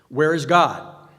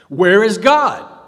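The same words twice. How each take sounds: First: It is said loudly and sternly. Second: It is nearly shouted in anger.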